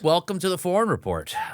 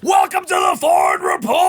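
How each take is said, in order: First: It is said in a calm, normal voice. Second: It is said in a loud, yelling voice.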